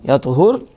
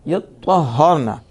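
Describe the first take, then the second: First: The t sound is single and unvoweled. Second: The t sound is doubled and held. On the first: "बिसुकून त्वाई" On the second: "व तशदीदिहा"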